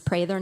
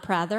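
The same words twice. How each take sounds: First: The first syllable rhymes with 'pray'. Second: The first syllable does not rhyme with 'pray'. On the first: The speaker calls it right. "It's Prather, I pray for Prather" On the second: The speaker calls it wrong. "not Prather"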